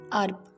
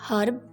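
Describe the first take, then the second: First: The word begins with no h sound. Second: The word begins with an audible h sound. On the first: "in American English they say like herb, H is silent" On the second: "British speakers say herb, H is pronounced"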